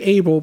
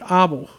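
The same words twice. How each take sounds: First: The name is said with an English pronunciation. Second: The name is said with a Dutch pronunciation. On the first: "we would say Abel" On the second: "but they pronounce it Abel"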